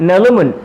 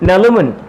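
First: The syllables are joined into one smooth word. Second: The syllables are joined into one smooth word.

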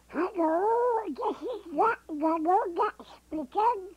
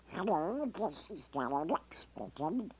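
First: It is a smaller, baby-duck-like cheek voice. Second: It is the standard Donald Duck voice.

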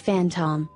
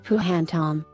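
First: The word begins with an f sound. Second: The word begins with a p sound. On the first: The speaker calls it right. "the proper pronunciation is phantom, making the same sound that the letter F would make" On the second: The speaker calls it wrong. "a person who is new to English may assume that the proper sound may be"

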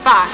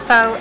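First: The vowel is a short 'uh' sound. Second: The vowel is a long 'oh' sound. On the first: The speaker calls it right. "it's fa" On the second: The speaker calls it wrong. "It's not fo"

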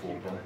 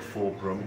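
First: The phrase is said quickly, running together. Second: The phrase is said at a normal, unhurried pace.

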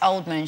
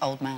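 First: The stress falls on the first part, old. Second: The stress falls on the second part, man. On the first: The speaker calls it wrong. "people pronounce it Oldman" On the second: The speaker calls it right. "It's pronounced Old Man"

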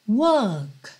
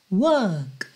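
Both takes have the same delivery.

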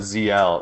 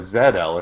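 First: The letter Z is said as "zee". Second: The letter Z is said as "zed". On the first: This is the American way of saying the name. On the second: This is how people outside America say the name.

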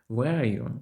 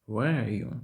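Both takes have the same delivery.

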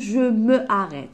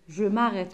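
First: The 'me' is said as a full syllable. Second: The 'me' is reduced to an m sound. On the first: The speaker calls it wrong. "je me arrête, c'est faux" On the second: The speaker calls it right.

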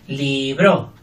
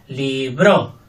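First: The stress is on the second syllable. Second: The stress is on the second syllable.

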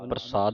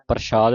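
First: The middle consonant is a plain s sound. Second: The middle consonant is an sh sound. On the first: The speaker calls it right. "ਪ੍ਰਸਾਦ ਸੱਸਾ ਬੋਲਣਾ" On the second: The speaker calls it wrong. "ਸ਼ੱਸ਼ਾ ਨਹੀਂ ਬੋਲਣਾ"

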